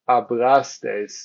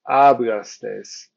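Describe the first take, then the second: First: The stress is on the middle syllable. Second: The stress is not on the middle syllable. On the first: The speaker calls it right. "This is why we say hablastes" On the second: The speaker calls it wrong. "or hablastes"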